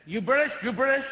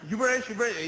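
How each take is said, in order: First: Imitating an American man. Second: Mimicking the American. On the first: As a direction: mimic a pushy Memphis dad, louder and higher. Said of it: "and he said". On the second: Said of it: "And I go".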